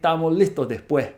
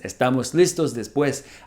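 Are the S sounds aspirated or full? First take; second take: aspirated; full. First: The S sounds are breathed like an h. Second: The S sounds are pronounced fully.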